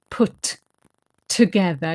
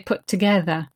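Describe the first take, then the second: First: The T of 'put' is released separately from 'together'. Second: The T of 'put' merges into 'together'. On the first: The speaker calls it wrong. "you don't say put together" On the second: The speaker calls it right. "you say put together"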